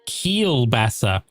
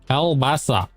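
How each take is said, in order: First: The first syllable sounds like 'keel'. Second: The first syllable sounds like 'kal'. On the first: The speaker calls it right. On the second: The speaker calls it wrong.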